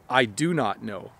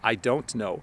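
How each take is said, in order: First: Every word is said fully and separately. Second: 'Don't' and 'know' are said as clear words. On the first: "the full and proper sentence" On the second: "just use the contraction"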